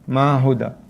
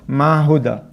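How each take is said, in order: Both takes have the same delivery.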